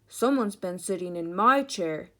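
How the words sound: It is said in a big, deep voice. "in his great big voice"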